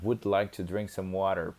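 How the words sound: It is spoken in an American English accent. "seria no inglês americano"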